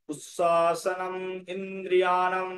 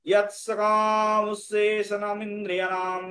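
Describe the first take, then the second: First: উচ্ছ্বাসনম and ইন্দ্রিয়াণাম said as separate, drawn-out words; piece-by-piece teaching recitation; broken into parts. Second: ইয়াত সকাম উচ্ছেষণম ইন্দ্রিয়াণাম chanted as one sustained line; flowing Sanskrit verse chant; beautifully joined recitation. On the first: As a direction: take it apart word by word, evenly. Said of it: "ভেঙে ভেঙে নিলাম". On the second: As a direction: join the whole line smoothly on a held tone. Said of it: "এবার সুন্দর করে উচ্চারণ করি". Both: Shown as a demonstration.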